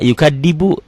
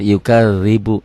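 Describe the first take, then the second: First: The middle consonant is sounded like plain d. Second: The middle consonant is sounded like th in this. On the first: The speaker calls it wrong. "Ada juga yukadibu, bukan yukadzibu" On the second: The speaker calls it right. "Orang manapun sama kalau sudah belajar yukadzibu"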